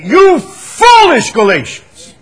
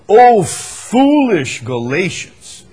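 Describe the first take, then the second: First: It is read with strong passion. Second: It is read calmly and plainly.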